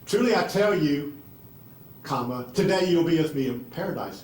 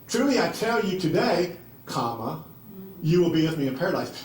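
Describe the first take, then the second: First: The break comes before the word today. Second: The break comes after the word today.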